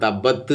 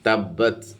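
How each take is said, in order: First: The final t ends without a puff of air. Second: The final t ends with a light puff of air. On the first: The speaker calls it wrong. "എന്ന് പറയാതെ" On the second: The speaker calls it right. "ചെറിയ ഒരു കാറ്റ് പോകുന്ന രൂപത്തിൽ"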